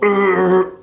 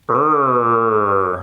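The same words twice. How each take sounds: First: The sound is choked off with no airflow. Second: The sound is voiced with steady airflow behind it. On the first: The speaker calls it wrong. "they assume there's no airflow" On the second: The speaker calls it right. "it's like you're choking on your tongue like this"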